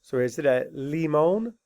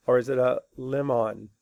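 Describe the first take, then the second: First: Limon with a long ee and a long oh; wrong long vowel. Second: Lemon with a short e and a schwa; correct short vowel. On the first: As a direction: stretch it out as "limon", wrong on purpose. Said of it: "What do I put on the bridge?". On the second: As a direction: say "lemon" the right way, short and plain. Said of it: "that's not how you say it". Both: Shown as a demonstration.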